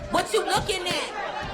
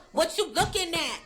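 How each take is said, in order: First: Higher, slow, shouted "What you looking at?"; slow shouted taunt. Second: Chanted, higher menacing cheer line; chanted, challenge the fans; taunting chant. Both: Retold or imitated. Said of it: "They're like".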